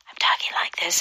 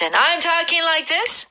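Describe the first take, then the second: First: It is said at a normal, quieter volume. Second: It is said in a raised, loud voice.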